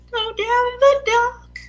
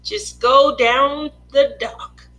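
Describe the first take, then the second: First: Much higher, lilting repeat; high sing-song. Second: Said in the usual way. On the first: Pretend. Streamer imagining walking into the picture, high sing-song. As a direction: lift GO DOWN THE DOCK up high.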